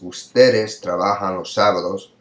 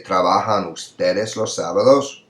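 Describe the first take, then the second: First: "Ustedes trabajan los sábados" read as a statement; no questioning lift on "sábados"; statement intonation. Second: "Trabajan ustedes los sábados" rising at the end; question intonation. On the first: Teacher reading the statement before inverting it, statement tune. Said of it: "we look at a statement". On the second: Teacher showing inverted word order to students, rising question tune. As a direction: lift "sábados" to ask. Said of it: "you'd still do the voice, uh, pitch change". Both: Shown as a demonstration.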